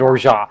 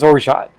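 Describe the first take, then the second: First: The final T sound is left silent. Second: The final T sound is clearly pronounced. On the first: "just swallows the T because it is French in origin" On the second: "I'm hearing it as orgeat"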